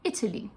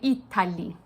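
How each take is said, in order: First: The middle vowel is a reduced, near-silent schwa. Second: The middle vowel is a full, clear A. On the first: "we would turn this into a schwa" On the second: "an Italian might say Italy"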